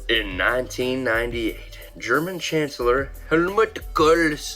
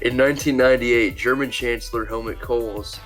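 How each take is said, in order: First: It is read in a put-on accent. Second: It is read in his normal voice.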